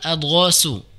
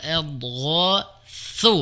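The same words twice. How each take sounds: First: The consonant is a hissing s sound. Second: The consonant is a soft th sound. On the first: The speaker calls it wrong. "bukan adghasu. Jangan terbaca dengan sin ya" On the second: The speaker calls it right. "Kemudian huruf tha ya"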